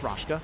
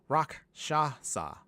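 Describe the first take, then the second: First: The name is said short, in two syllables. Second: The name is said fully, in three syllables. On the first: The speaker calls it wrong. "I've been saying that wrong" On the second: The speaker calls it right. "no, Rakshasa"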